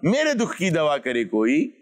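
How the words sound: It is said in a taunting tone.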